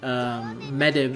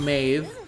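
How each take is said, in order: First: The name is said as two syllables. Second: The name is said as one syllable. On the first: The speaker calls it wrong. "as she's spelled in the game, M-E-D-B" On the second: The speaker calls it right. "but you pronounce it Maeve"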